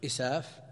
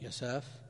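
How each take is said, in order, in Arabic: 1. يبدأ الاسم بصوت همزي 'i'. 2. يبدأ الاسم بصوت 'ya'. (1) "بالهمز بدل الياء بالهمزة المكسورة" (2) "وضبطه بعضهم بالفتح"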